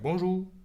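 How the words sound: The r is said as a w.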